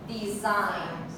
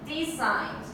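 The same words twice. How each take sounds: First: The stress is on the second syllable. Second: The stress is on the first syllable. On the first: The speaker calls it right. "in the second one" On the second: The speaker calls it wrong. "what if we put the stress on the first syllable? How would it sound?"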